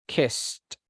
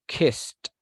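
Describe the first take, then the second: No difference in how they are said.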